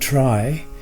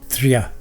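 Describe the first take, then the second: First: It is said like the English word try. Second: It is said with the Sanskrit conjunct sound. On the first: The speaker calls it wrong. "it is often mispronounced this way" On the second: The speaker calls it right. "correctly pronounced as triya"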